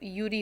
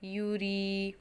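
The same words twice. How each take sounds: First: The final vowel is cut short. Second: The final vowel is drawn out long. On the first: "इसकी आवाज़ सिर्फ यूरी होती" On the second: "रॉ की आवाज़ थोड़ी लंबी हो गई है"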